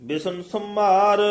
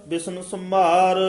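Both takes have the same delivery.

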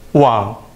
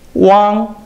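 First: The pitch dips low then rises. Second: The pitch stays high and level.

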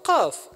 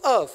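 First: The word starts with a deep q sound. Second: The word starts with a glottal stop, no q. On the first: The speaker blends in with a mountain community that keeps the sound. "I should pronounce the qaf" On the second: The speaker blends in with city speakers who drop the sound. "I should pronounce qaf as af"

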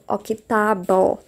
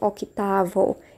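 First: The middle consonant is pronounced like a b. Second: The middle consonant is pronounced like a v. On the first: The speaker calls it right. "tem som de B de bola. Por isso que eu falo octavo" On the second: The speaker calls it wrong. "e não octavo"

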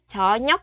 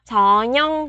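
First: The final consonant sounds like k. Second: The final consonant sounds like ng. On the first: The speaker calls it wrong. "chứ không phải là 저녁" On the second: The speaker calls it right. "cờ bị đọc thành ngờ"

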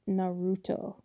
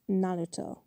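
First: The name has English pronunciation. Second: The name has Japanese pronunciation. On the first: This is how the dubbed version says it. The speaker calls it wrong. "not Naruto" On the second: This is how the original audio says it. The speaker calls it right. "Because it's pronounced Naruto"

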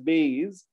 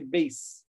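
First: The word ends with a buzzing Z sound. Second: The word ends with a hissing S sound. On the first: The speaker calls it wrong. "Indians usually pronounce as base, but it's not a Z sound" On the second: The speaker calls it right. "it's a S sound. You say base"

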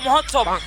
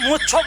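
First: The word is said in its full form. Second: The word is said in a short, clipped form. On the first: The speaker calls it right. "মহোৎসব মহোৎসব" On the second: The speaker calls it wrong. "ওটা মুচ্ছব নয়"

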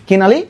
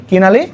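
The two takes are said the same way.

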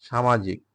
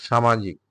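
No difference in how they are said.

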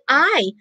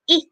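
First: The vowel is a long gliding 'eye' sound. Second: The vowel is a short 'ih' sound. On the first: The speaker calls it wrong. "it doesn't sound I" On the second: The speaker calls it right. "So it has the short vowel I"

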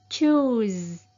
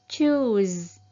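No difference in how they are said.

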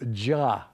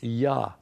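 First: The name begins with a J sound. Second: The name begins with a Y sound. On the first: "through some Germanic influence or whatever, it was changed to Jah" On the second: "there are no J's in the Hebrew. It is Yah"

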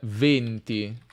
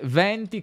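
First: The stressed E vowel is closed. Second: The stressed E vowel is open. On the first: It means the number twenty. "venti si pronuncia con una E chiusa" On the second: It means winds. "Mentre venti come winds"

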